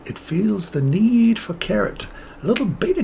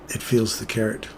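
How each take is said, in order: First: Playful high voice. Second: Said in the usual way. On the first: Pretend. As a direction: stretch it out in a silly high voice. Playful carrot voice repeat.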